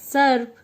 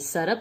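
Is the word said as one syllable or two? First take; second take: one; two. First: No vowel is heard between the r and p. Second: A vowel is heard between the r and p. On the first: "बन गया सर्प" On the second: "ये सरप से बन गया सर्प"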